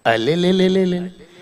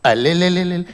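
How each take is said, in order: First: Put-on slow, soft wailing baby voice; baby crying. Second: Put-on soft crying baby wail, close to tears; baby crying harder. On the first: Comedian mimicking baby Shahrukh wailing in his cradle, soft baby cry. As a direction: cry like a spoiled newborn. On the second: Comedian mimicking baby Shahrukh crying harder in the cradle. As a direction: sob it out like a newborn.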